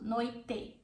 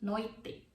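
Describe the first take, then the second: First: The final vowel is a full E sound. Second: The same.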